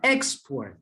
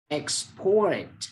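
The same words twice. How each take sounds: First: The stress is on the first syllable. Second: The stress is on the second syllable. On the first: The speaker calls it wrong. "bukan export" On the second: The speaker calls it right. "tapi ... export"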